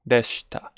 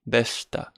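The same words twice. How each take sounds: First: The vowel after sh is dropped. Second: The same.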